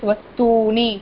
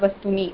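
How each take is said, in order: First: The u vowel is held long. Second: The u vowel is cut short. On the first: The speaker calls it right. "It should be dual matra, which is Vastuni" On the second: The speaker calls it wrong. "It's not Vastuni. Vastuni is wrong"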